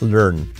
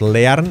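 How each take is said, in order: First: No extra vowel sound is heard after the L. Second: An extra vowel sound is heard after the L. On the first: The speaker calls it right. "la A no se pronuncia" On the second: The speaker calls it wrong. "No es learn, la A no se pronuncia"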